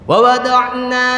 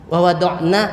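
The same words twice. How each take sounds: First: The final vowel is held long. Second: The final vowel is cut short. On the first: It means we. The speaker calls it right. "naknya panjang" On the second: It means they, referring to women. The speaker calls it wrong. "naknya dibaca pendek"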